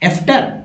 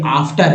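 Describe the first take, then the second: First: The first vowel sounds like 'e'. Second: The first vowel sounds like 'aa'. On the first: The speaker calls it wrong. "एफ्टर नहीं दोस्तों" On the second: The speaker calls it right. "ए जो है आ के रूप में उच्चारण हुआ"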